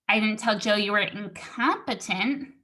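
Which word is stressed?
incompetent. The word incompetent is stressed. Something else insulting was said instead. "I told him you were stupid"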